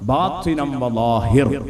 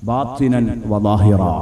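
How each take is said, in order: First: The last word ends with a bare consonant. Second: The last word ends with a short vowel. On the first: This follows one tribe's dialect rule for pausing. "വഖഫ് ചെയ്യുന്ന സമയത്ത് അങ്ങനെ പറയാം" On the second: This is the usual standard form. "ബാത്തിനൻ വലാഹിറ എന്ന് പറയേണ്ടതിന് പകരം"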